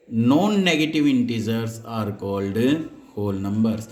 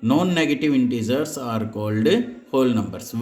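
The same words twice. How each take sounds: First: Non-negative said slowly and deliberately; stress on non-negative. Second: "Non-negative" drawn out, slow emphasis; stress on non-negative. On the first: Teacher stressing "non-negative" so students don't say positive. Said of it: "मैं यहाँ पर positive नहीं बोल रहा हूँ". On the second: Teacher repeating the term so students remember non-negative. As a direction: hammer home "Non-negative" slowly. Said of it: "मैं बोल रहा हूँ नॉन negative numbers". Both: Shown as a demonstration.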